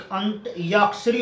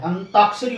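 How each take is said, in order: First: अंत याक्षरी with an extra y, "ant-yaakshari"; wrong pronunciation. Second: अंताक्षरी said as "antaakshari", no y; smooth अंताक्षरी without a y glide; correct pronunciation. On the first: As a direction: slip a y into अंत याक्षरी after the t. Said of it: "वो यहाँ पर या नहीं आएगा". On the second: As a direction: go straight from t to long aa in अंताक्षरी. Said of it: "ए न ताक्षरी होता है ये". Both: Shown as a demonstration.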